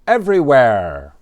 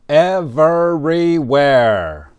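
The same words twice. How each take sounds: First: The word is said quickly and reduced. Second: The word is said slowly and fully.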